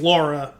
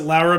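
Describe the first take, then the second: First: The name is said with plain English sounds. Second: The name is said with Spanish-style sounds. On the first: This is the ordinary form of the name. "it's Laura" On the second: The bearer plays up Latin roots to win votes. "she pronounced it Laura"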